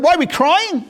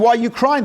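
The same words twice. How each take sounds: First: High-pitched indignant comeback; acted outrage, pitch leaping up; incredulous echo. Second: Said in the usual way. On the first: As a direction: echo the question back in sheer disbelief. Sages' incredulous echo, retold.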